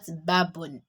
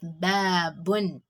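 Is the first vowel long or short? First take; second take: short; long. First: The first vowel is cut short. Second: The first vowel is held long. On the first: The speaker calls it wrong. "not babun. If you say babun, that means you didn't give it um alif mad" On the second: The speaker calls it right. "So we have babun, I elongated the letter that has mid attached to it"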